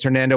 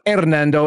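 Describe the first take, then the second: First: The name has an American English pronunciation. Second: The name has a Spanish pronunciation. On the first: The speaker calls it right. "the gringo pronunciation is Hernando" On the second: The speaker calls it wrong. "Not Hernando, as you might if you live in San Antonio too long"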